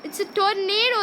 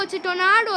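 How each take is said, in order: First: TORNADO said tor-NAY-do; tornado with long A. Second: TORNADO said tor-NAH-do; tornado with broad A. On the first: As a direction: say tornado with an "ay" in the middle. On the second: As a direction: say tornado with an "ah" in the middle. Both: Shown as a demonstration. Saying the word two ways.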